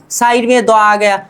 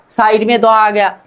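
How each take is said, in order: Both takes have the same delivery.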